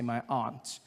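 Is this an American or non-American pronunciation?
non-American. It is said in a non-American accent.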